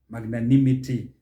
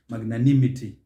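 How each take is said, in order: The two takes are said the same way.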